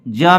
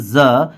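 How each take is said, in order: First: ज said as "juh"; ज set apart, with no buzz; simple j sound. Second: ज said as buzzed "zuh"; ज set apart, vibrating like z; z sound. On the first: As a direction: show the undotted ज as plain j. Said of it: "ये simple ज है". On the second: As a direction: show the dotted ज as z. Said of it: "इस ज और इस ज". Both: Shown as a demonstration.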